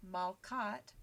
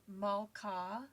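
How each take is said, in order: First: "malkat" with a clear final t; construct form. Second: "malka" slow, ending on open ah; absolute form. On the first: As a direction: stress the ending at in "malkat". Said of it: "and now we have malkat". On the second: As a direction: say "malka" slowly, final ah clear. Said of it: "look at the example for queen". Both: Shown as a demonstration.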